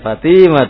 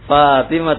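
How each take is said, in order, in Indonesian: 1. Suku kata kedua memiliki vokal panjang. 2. Suku kata pertama memiliki vokal panjang. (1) "fa-nya yang panjang bukan to-nya" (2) "Fatimah tuh bukan"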